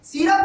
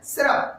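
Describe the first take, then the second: First: सिरप said the wrong way, as si-rap; wrong pronunciation. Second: सिरप said correctly as si-rup; correct pronunciation. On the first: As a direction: mispronounce सिरप on purpose. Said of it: "सिरप नहीं बोलना है आपको". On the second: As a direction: say सिरप the right way, cleanly. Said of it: "आपको सही उच्चारण करना है सिरप". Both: Shown as a demonstration.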